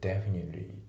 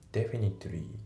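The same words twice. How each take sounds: First: The middle T sound is barely pronounced. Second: The middle T sound is clearly pronounced. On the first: The speaker calls it right. "T の部分がねあまりちょっと発音されてないですよね" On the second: The speaker calls it wrong. "Definitely じゃなくて"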